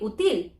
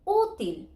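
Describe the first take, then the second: First: The stress is on the last syllable. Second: The stress is on the first syllable. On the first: The speaker calls it wrong. "should be accent in the til. It should be útil" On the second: The speaker calls it right. "I am broken the rule"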